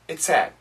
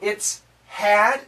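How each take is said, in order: First: The H at the start of had is dropped. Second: The H at the start of had is pronounced. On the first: The speaker calls it right. "So it almost sounds like sad" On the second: The speaker calls it wrong.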